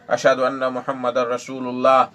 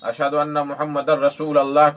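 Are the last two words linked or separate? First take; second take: linked; separate. First: The last two words are joined together. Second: The last two words are said separately. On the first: The speaker calls it right. "रसूलुल्लाह कहना चाहिए, ये सही है" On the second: The speaker calls it wrong. "रसूल अल्लाह कह देते हैं"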